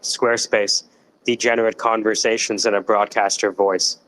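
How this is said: It is said with a frowning, glum tone. "Or you can do with a frown"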